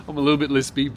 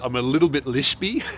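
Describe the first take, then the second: First: Said in the usual way. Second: "lispy" comes out as "lishpy"; "lispy" with a slushy sh sound from the retainer; lisping with retainer. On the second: Real, not acted.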